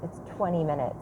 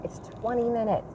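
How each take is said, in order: First: Said in the usual way. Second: "twenty" raised high and stressed, with the rest of the line softer. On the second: Shown as a demonstration. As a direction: pitch "twenty" up as if pleading, "it's only twenty".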